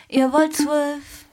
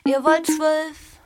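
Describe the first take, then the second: No difference in how they are said.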